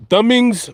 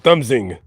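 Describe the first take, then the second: First: "thumbings" with the s at the very end; trying out THUMBINGS. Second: "thumbsing" with the s inside, after "thumb"; trying out THUMBSING. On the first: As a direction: say "thumbings", higher, no s after "thumb". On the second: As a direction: say "thumbsing", ending on -ing without s. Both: Shown as a demonstration. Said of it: "or is it thumbsing?".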